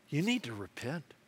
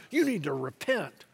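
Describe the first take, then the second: First: Soft, lowered call to repentance; hushed, earnest admonition; quiet appeal. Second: Firm, mildly stern call to repentance; full-voiced but restrained admonition; old-school preacher's call. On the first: Acted. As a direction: urge it gently and soberly. Jesus's appeal, against old-school take. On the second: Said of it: "that old school kinda".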